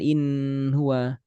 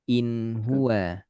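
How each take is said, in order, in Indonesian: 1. Bunyi n ditahan terlalu lama. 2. Bunyi n jelas dan singkat. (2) "Izhar halqi. Jelas setengah mengalir"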